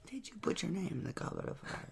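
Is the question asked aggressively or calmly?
calmly. It is asked softly and calmly.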